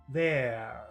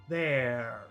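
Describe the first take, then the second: Both takes have the same delivery.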